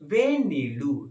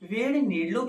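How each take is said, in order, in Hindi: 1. वाक्यांश छोटा करके बोला गया है, एक ध्वनि मौन रहती है। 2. वाक्यांश पूरा बोला गया है, हर ध्वनि उच्चारित होती है।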